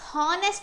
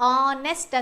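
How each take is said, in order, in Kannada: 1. ಈ ಪದ ಸ್ಪಷ್ಟವಾದ h ಶಬ್ದದಿಂದ ಆರಂಭವಾಗುತ್ತದೆ. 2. ಈ ಪದ ನೇರವಾಗಿ ಸ್ವರದ ಶಬ್ದದಿಂದ ಆರಂಭವಾಗುತ್ತದೆ. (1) "ಇಲ್ಲಿ ಇದು ಹಾನೆಸ್ಟ್ ಅಂತ ಹೇಳಲ್ಲ, ಹಾನೆಸ್ಟ್ ಅಂತ ಎಚ್ ಅನ್ನ ಉಚ್ಚಾರ ಮಾಡಲ್ಲ" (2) "ಉಚ್ಚಾರ ಮಾಡುವಾಗ ಆನೆಸ್ಟ್ ಅಂತ ಹೇಳ್ತೀವಿ"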